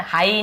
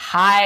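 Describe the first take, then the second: First: हाई ending in a separate "ee"; two-vowel misreading. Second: हाई as one gliding "haaye"; loud, drawn-out हाई, like "haaye"; glide pronunciation. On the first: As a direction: say हाई as "haa-ee". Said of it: "हाई नहीं बोलेंगे हम इसे". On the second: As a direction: let हाई glide off, no separate "ee". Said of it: "हाई ऐसे बोल रहे हैं". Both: Shown as a demonstration.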